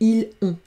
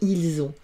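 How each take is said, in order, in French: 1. Les deux mots restent séparés, sans z. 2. Un son z relie les deux mots. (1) "C'est plus joli que ils ont" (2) "je fais la liaison, il y a un S"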